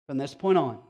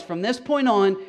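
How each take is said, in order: First: Said in the usual way. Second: "From this point on" pushed higher and louder, "point" hit; emphatic. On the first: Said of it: "repeated quieter". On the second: Acted. Pastor announcing the turn in Acts, emphatic. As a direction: proclaim "From this point on" with a strong "point". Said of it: "repeated for contrast".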